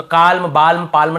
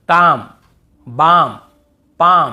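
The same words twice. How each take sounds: First: काल्म, बाल्म, पाल्म with the L sounded, marked wrong; wrong pronunciation. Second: काम, बाम, पाम said slowly and clearly with no L; silent L demo. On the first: Scene: teacher showing students the common mistake, wrong take. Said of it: "नहीं होगा". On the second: Scene: teacher sounding out silent L words for students, clear demo. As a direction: drill each word slowly. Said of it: "और यहाँ पे". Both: Shown as a demonstration.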